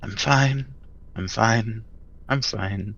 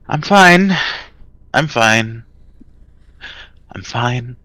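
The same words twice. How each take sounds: First: It sounds muttered inward to oneself. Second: It sounds spoken outward to another person.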